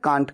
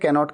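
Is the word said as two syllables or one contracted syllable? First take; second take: one syllable; two syllables. First: It is said contracted as one syllable. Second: It is said in full as two syllables. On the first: The speaker calls it right. "ऐसे में कांट कहिए" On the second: The speaker calls it wrong. "ऐसे practice में है ही नहीं, इस तरह से बोला नहीं जाता है"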